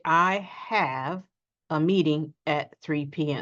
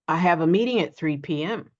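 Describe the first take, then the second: First: The word at is fully pronounced. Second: The word at is quick and reduced. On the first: The speaker calls it wrong. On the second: The speaker calls it right.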